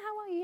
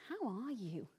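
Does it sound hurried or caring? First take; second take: hurried; caring. First: It is said quickly and offhandedly. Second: It is said slowly and warmly.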